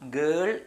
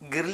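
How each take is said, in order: First: The vowel is an 'er' sound. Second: The vowel is a short 'i' sound. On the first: The speaker calls it right. "ഗേൾ എന്ന് വായിക്കണം" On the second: The speaker calls it wrong. "ഗിർൽ എന്ന് വായിക്കരുത്"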